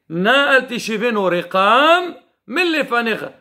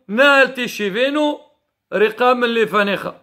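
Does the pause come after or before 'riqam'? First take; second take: after; before. First: The pause comes after the word riqam. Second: The pause comes before the word riqam. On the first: The speaker calls it right. "il faut dire" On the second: The speaker calls it wrong. "des fois, on dit"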